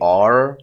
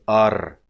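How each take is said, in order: First: The r sound is smooth and not rolled. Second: The r sound is rolled with the tongue. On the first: The speaker calls it wrong. "we don't say r in Arabic" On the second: The speaker calls it right. "It's a more rolling ra"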